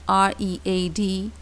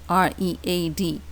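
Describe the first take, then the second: Both takes have the same delivery.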